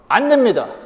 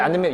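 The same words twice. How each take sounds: First: It is said loudly and firmly. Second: It is said softly and hesitantly.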